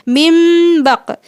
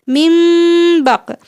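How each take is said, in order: The two takes are said the same way.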